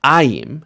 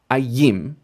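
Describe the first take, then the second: First: AY-im, punched first syllable; stress on first syllable. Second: A-YIM, beat on the last syllable; wrong final stress. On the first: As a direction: hit "Ay" in Ayim, keep "im" light. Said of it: "it's gonna be ayim". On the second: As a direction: push the stress onto "yim" in ayim. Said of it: "not ayim". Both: Shown as a demonstration.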